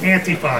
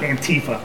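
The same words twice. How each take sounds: First: It starts like 'anti' in anti-fascism. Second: It does not start like 'anti' there. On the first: The speaker calls it right. "It's Antifa. Why? Because it's anti-fascism" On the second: The speaker calls it wrong. "not Antifa"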